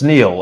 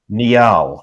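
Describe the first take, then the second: First: One syllable, rhyming with 'feel'. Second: It is spoken as two syllables. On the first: This is how the name is properly said. "it's it's Neil. It's Neil" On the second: This is the original regional pronunciation. "which sounds great. It's a it's really a two-syllable name"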